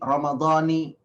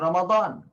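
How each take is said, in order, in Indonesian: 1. Kata ini berakhir dengan vokal i. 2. Kata ini berakhir dengan konsonan, tanpa vokal akhir. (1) "ada yang mengatakan" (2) "kita tidak memberi harokat"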